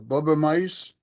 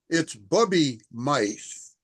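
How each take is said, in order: First: The first word ends with an 'uh' sound. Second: The first word ends with an 'ee' sound. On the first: The speaker calls it wrong. "just because of the way you pronounced it" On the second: The speaker calls it right. "Bubby, it's Bubby mice"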